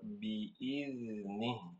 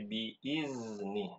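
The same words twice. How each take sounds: First: The middle consonant is a dh sound. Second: The middle consonant is a z sound. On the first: The speaker calls it right. "Yang benar" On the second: The speaker calls it wrong. "dengan huruf zai. Ini keliru"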